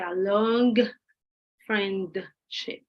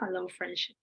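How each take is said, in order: First: The G at the end of long is pronounced. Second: The G at the end of long is dropped. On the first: The speaker calls it wrong. "you don't say" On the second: The speaker calls it right. "You don't pronounce the G"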